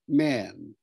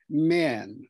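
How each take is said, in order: Both takes have the same delivery.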